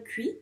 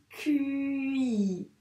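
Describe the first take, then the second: First: Said in the usual way. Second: "cuit" drawn out very slowly; syllable stretched out. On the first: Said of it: "on vérifie cuit". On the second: Shown as a demonstration. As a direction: glide slowly from the U into a long I in "cuit". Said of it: "bien dire tous les sons".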